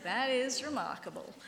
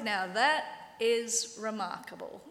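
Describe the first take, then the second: First: Dry sarcastic stress on is; a hint of sarcasm. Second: Slow, dry sarcasm on that; drawn-out mock amazement; ex-blind man mocking the Pharisees, sarcastic. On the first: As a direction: lean on is with mock wonder. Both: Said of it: "it's so sarcastic".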